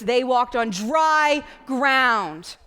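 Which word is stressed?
dry ground. The stress falls on the words dry ground. The dry ground is the important part. The speaker calls it right.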